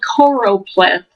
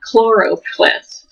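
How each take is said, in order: First: The word starts with a plain K sound. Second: The word starts with a K and L sound. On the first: The speaker calls it right. "It's called choropleth" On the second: The speaker calls it wrong. "not chloropleth. I always want to say chloro"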